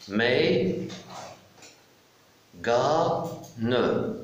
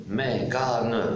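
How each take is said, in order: First: "Mais, ga, ne" stretched, long gaps between syllables; split into syllables. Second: Said in the usual way. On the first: Shown as a demonstration. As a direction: sound out "Mais, ga, ne" piece by piece. (« Mais, ga, ne » syllabe par syllabe, lentement) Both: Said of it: "je découpe le mot".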